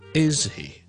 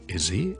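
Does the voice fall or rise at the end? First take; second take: fall; rise. First: The pitch falls at the end. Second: The pitch rises at the end. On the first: The speaker is already sure and seeks agreement. "那我就会呢是一个下降语调的 ... 由上而下的" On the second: The speaker is unsure and wants confirmation. "我就会用一个上升的语调来去到表现这个疑问的 ... 向下而上"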